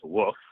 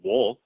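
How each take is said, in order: First: The word is said without an L sound. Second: The word is said with an L sound.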